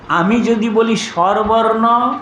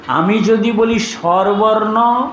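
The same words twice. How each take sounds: The two takes are said the same way.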